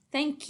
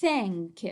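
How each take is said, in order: First: Said in the usual way. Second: Reading out. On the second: Shown as a demonstration. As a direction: Thank drawn out, final k released separately. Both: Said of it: "Let's read it together".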